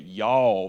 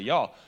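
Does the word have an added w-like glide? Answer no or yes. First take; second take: yes; no. First: The word has an added w-like glide. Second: The word is said plainly without an added glide. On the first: This is how people from that area say it. "I don't say y'all, like adding a W" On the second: This is how the speaker says it. "I just say y'all"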